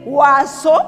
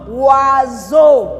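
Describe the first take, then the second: First: The middle consonant is a hissing 's' sound. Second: The middle consonant is a buzzing 'z' sound. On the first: The speaker calls it wrong. "Au lieu de dire oiseau" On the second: The speaker calls it right. "nous lisons oiseau"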